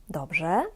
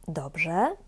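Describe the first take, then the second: No difference in how they are said.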